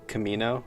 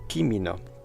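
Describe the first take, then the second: First: The stress is on the middle syllable. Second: The stress is on the first syllable. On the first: The speaker calls it wrong. "I'm pronouncing it like a Westerner" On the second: The speaker calls it right. "I think they emphasize the first syllable more often than the middle syllable"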